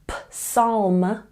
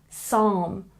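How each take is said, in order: First: The P at the start is sounded. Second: The P at the start is silent. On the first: The speaker calls it wrong. "It's not p psalm" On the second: The speaker calls it right. "the P is silent"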